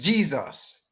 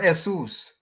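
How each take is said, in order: First: The name is said with English pronunciation. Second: The name is said with Spanish pronunciation. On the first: "in English, I want took that word and say it is" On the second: "In Spanish, Jesus is pronounced as"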